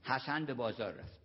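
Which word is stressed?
none. No word is given special stress.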